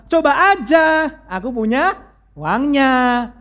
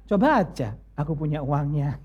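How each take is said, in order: First: "Coba aja, aku punya uangnya" slow, high and loud, delighted; optimistic reading. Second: "Coba aja, aku punya uangnya" low, quiet and falling; sarcastic reading. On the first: Wife reading the chat, delighted and optimistic. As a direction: read it like great news. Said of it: "membaca tulisan". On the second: Husband's meaning of the chat, flatly sarcastic. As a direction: say it as a grim dare. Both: Retold or imitated.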